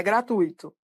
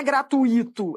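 First: "gratuito" as gra-TUI-to; correct pronunciation. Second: "gratuito" as gra-tu-Í-to; wrong pronunciation. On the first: Teacher giving the correct form, tui as a diphthong. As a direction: keep tui as one stressed syllable in "gratuito". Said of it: "a pronúncia correta". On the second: Teacher showing the incorrect form, i stressed as a hiatus. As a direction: stress the i in "gratuito" as its own syllable. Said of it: "a pronúncia correta não é gratuito". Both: Shown as a demonstration.

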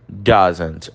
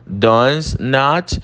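First: "doesn't" said short and low; teacher contrasting the short form; contracted form. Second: "Does not" with stress on not; teacher contrasting full form. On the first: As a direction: clip it to "doesn't". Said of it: "forma contraída". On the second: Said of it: "forma contraída do does not". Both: Shown as a demonstration.

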